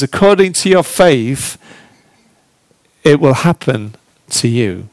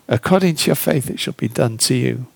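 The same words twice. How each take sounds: First: Said in the usual way. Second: Quieter and faster, fading into a whisper; hushed repeat. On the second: Acted. Preacher repeats Jesus' words to the congregation, hushed to a whisper. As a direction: let the repeat sink to a whisper.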